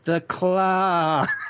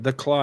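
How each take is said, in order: First: It is said in a put-on character voice. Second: It is said in the speaker's normal voice.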